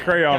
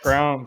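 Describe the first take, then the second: First: The word is said as two syllables, cray-on. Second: The word is said as one syllable, like crown. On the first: It is the speaker's current, non-Southern usage. "I say crayon now" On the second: It marks a Southern way of speaking. "Crown's a Southern thing"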